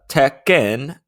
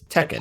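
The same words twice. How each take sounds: First: It is said with a Japanese-style pronunciation. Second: It is said with an English-style pronunciation. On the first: This is how the name is said in its original language. "I'm sure I still butchered it even after listening to it ten times" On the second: This is how most people say the name. "better known to everybody else as"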